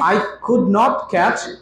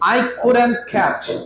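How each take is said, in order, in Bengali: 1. 'Could not' দুটো পূর্ণ শব্দ হিসেবে বলা হয়। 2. 'Could not' একসাথে জুড়ে একটি সংকুচিত শব্দ হয়।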